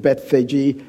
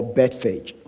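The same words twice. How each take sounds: First: Bethphage said as BETH-fay-jee, with a final ee; three-syllable Bethphage. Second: Bethphage said as BET-fayj, no final ee; two-syllable Bethphage. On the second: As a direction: end Bethphage on a soft j. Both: Shown as a demonstration. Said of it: "some people would pronounce it".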